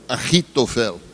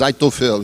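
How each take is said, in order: First: The name is pronounced as Hebrew says it. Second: The name is pronounced as Portuguese reads it. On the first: "o hebraico" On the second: "como está escrito no português"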